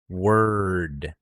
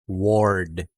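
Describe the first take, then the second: First: It goes from W straight into R. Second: An O vowel is heard before the R. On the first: The speaker calls it right. "we're dropping the O sound" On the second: The speaker calls it wrong. "Hindi ko sinasabing ward"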